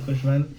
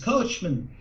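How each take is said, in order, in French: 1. Le nom se prononce à la française. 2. Le nom se prononce à l'américaine. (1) "moi, j'ai- j'étais habitué à dire Kochman" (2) "ça a été américanisé. Donc les gens disent Kochman"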